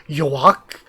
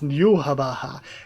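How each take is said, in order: First: The name is said as one short syllable. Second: The name is said with several separate syllables. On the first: This is how the speaker used to read the name. The speaker calls it wrong. "That's what I always thought" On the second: This is how the name is actually pronounced. The speaker calls it right. "and it's Yuhabaha"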